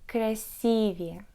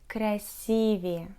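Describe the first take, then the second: Both takes have the same delivery.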